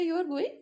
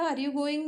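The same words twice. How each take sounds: First: "You are going" higher, rising on going like a question; questioning lift at the end of "going". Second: Said in the usual way. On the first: Shown as a demonstration. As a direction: swing "going" upward to ask it. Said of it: "that rising tone changes the". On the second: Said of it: "नहीं बोला, आपने कहा".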